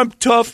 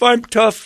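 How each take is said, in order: First: "I'm tough" high and pleading, stress on "I'm"; whiny husband impression. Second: "I'm tough" high, with a falling, self-pitying end; whiny husband impression. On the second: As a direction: let "I'm tough" drop sadly at the end. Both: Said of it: "a wife who's seen her husband go through this".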